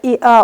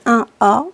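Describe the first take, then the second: First: The first part is said as the letter i. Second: The first part is said as the number one.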